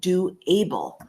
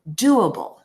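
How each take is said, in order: First: It is said as two separate words. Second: It is said as one joined word. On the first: The speaker calls it wrong. "slightly different than saying do able" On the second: The speaker calls it right. "We would say doable"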